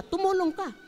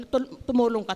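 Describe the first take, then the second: First: "tumulong ka" said much higher, as an urgent plea; pitched-up urging. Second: Said in the usual way. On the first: Shown as a demonstration. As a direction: lift "tumulong" high and press it. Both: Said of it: "repeats with more force".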